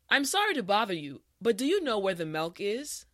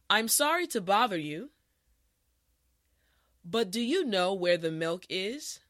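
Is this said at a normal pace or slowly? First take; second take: normal pace; slowly. First: The sentence is spoken at a natural speed. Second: The sentence is spoken slowly and carefully. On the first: "the last time at a regular pace" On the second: "this time repeat after me"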